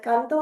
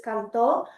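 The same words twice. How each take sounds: First: Canto said as CAN-to, first syllable stressed. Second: Canto said as can-TO, final syllable stressed; stress on last syllable. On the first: Student presenter demonstrating Spanish "I sing", stress on CAN. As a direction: lean on the CAN of canto, let "to" fall away. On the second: Student presenter demonstrating Spanish "I sang", stress on TO. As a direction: push the stress onto the TO of canto. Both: Shown as a demonstration. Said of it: "It can differentiate tense".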